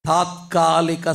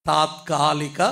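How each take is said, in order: The two takes are said the same way.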